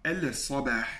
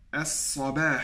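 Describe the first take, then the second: First: Al-sabah with the l sounded before the s; al-sabah said heavily with the lam kept; wrong unassimilated form. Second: As-sabah with a doubled s and no l; as-sabah pronounced smoothly without the l; correct assimilated form. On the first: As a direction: pronounce the l in al-sabah as the mistake to avoid. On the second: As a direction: say as-sabah, the lam melting into the s. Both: Shown as a demonstration. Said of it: "je ne dis pas al-sabah".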